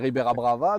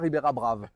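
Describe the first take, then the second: First: The final vowel of the second word is pronounced. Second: The final vowel of the second word is dropped.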